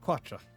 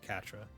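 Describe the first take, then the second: First: The name begins with a kw sound. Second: The name begins with a plain k sound. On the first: The speaker calls it wrong. "I have to make the Qua sound" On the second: The speaker calls it right. "it's supposed to be Katra"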